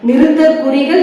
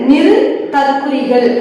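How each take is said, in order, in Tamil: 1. 'niru'வுக்குப் பின் இடைவெளி இல்லாமல் சரளமாகப் படிக்கப்படுகிறது. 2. 'niru'வுக்குப் பின் உடனே இடைவெளி விட்டுப் படிக்கப்படுகிறது. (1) "நிறுத்தற் குறிகள் என்று படிக்க வேண்டியதற்கு" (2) "இடைவெளி விட்டு நிறு தற்குறிகள்"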